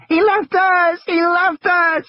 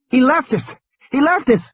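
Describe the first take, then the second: First: Lex screams after Ed Regis ran away; screaming child. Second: High, panicky repeated cry; frightened child. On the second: High, scared child voice. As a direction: Lex keeps crying out that they were left. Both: Acted. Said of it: "she had started to scream".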